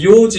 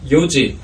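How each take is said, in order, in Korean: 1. 첫 모음을 길게 늘여요. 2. 첫 모음을 짧게 유지해요. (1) "요지 이렇게 발음을 많이 하는데 장음으로 늘리면 안 되고" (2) "짧게 요지 하셔야 된다는 거"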